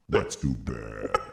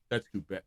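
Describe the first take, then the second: First: It is said in a put-on character voice. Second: It is said in his ordinary voice.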